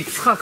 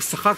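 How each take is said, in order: First: The name starts with a 'yi' syllable. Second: The name starts with a 'sh' sound. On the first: This is the standard form of the name. "ברור שזה יצחק" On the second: This is how the ancient residents said it. "אז הם אמרו שחק"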